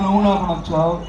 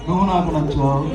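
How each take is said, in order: First: It is said in a thin, light voice. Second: The same.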